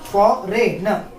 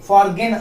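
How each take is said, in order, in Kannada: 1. ಮಧ್ಯದಲ್ಲಿರುವ g silent. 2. ಮಧ್ಯದಲ್ಲಿರುವ g ಉಚ್ಚಾರ ಆಗುತ್ತೆ. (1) "ಜಿ ಸೈಲೆಂಟ್" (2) "ಫಾರ್ಗೇನ್ ಅಥವಾ ಫಾರ್ಜನ್ ಅನ್ನಂಗಿಲ್ಲ"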